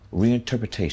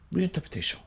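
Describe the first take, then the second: First: It is said in his usual American accent. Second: It is said with a put-on French accent.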